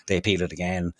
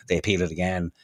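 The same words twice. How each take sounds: The two takes are said the same way.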